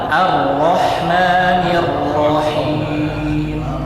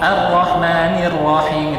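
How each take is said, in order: First: The r sounds are heavy and full. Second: The r sounds are light and thin. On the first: The speaker calls it right. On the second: The speaker calls it wrong. "itu tipis ro-nya"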